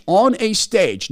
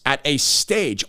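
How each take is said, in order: First: "on" slowed, higher and louder; stress on ON. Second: Said in the usual way. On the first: Shown as a demonstration. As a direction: correct it by leaning on "on".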